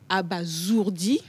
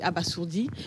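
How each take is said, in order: First: The middle consonant is a buzzing z sound. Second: The middle consonant is a hissing s sound. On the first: The speaker calls it right. "mais la bonne prononciation, c'est abasourdi" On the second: The speaker calls it wrong. "Généralement, on dit"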